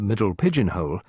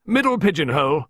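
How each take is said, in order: First: Said in the usual way. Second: High, loud order; barked. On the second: A narrator's reading. Visitor directing man to the notepaper, barked. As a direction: bark it out as a direction. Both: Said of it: "Miss Peake barked".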